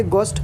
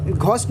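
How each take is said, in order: First: घोस्ट with a plain hard g, as "gost"; silent h. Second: घोस्ट with a breathed h after the g, as "gh-ost"; sounded h. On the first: Teacher corrects घोस्ट for learners, h left silent. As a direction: say घोस्ट as "gost", no breath after g. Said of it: "एच silent है". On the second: Teacher shows learners the mistake in घोस्ट, h sounded. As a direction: say घोस्ट wrongly, voicing the silent h. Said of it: "घोस्ट नहीं". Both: Shown as a demonstration.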